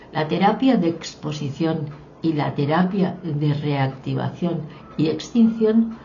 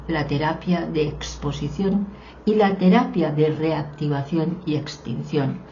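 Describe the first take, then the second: Both takes have the same delivery.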